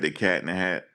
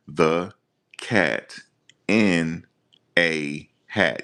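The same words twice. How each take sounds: First: Said in the usual way. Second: Each word alone, with long pauses between; halting word-by-word reading. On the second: Shown as a demonstration. Mocking a man reading out court documents, halting word by word. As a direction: read The Cat in a Hat one word at a time, like a stiff beginner. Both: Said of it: "You ever see people read like that?".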